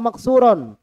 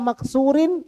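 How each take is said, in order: First: The ending has an a vowel before n. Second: The ending has an i vowel before n. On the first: "Jangan dibaca" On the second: "Jangan dibaca"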